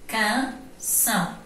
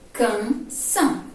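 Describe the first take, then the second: First: Slow Canção with the nasal passage shut, the ão loses its nasal ring; nose blocked. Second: Said in the usual way. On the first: Shown as a demonstration. Teacher showing students a blocked nasal A in Canção, slow and denasal. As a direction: pinch the nose and say Canção slowly. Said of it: "Bloqueou o A". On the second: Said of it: "que é o normal".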